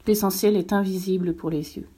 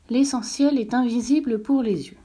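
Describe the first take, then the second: First: Said in the usual way. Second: Put-on higher boyish prince voice repeating; a touch higher, young prince repeating; little prince repeating. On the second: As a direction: echo it back like a child memorizing. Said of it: "répéta le petit prince".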